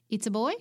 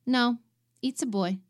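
First: Puzzled question. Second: Put-on a firmer "it's a boy", a bit higher and louder on no; firm correction. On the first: Retold or imitated. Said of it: "very confused". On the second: Mexican tech firmly correcting the mother: firm insistence. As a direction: plant your feet and correct her. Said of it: "my insistence".

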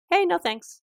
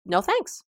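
First: Light, much higher, casual brush-off; breezy high no thanks. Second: Said in the usual way. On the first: Shown as a demonstration. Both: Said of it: "practice just saying simply".

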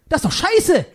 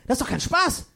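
First: Laughing outburst. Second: Said in the usual way. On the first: Acted. Punchline blurted with a laugh.

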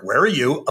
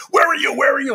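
First: Said in the usual way. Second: High-pitched mock scream of a frantic wife; imitating screaming wife. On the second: Wife screaming at husband down the phone, high mock scream. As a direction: demand it far higher, as if catching someone lying. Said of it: "she starts screaming at me".

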